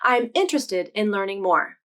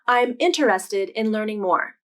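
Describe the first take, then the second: First: Interested is said with three syllables. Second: Interested is said with four syllables. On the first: "it's much more common to say interested in three syllables" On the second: "Sometimes native speakers will pronounce this word as four syllables"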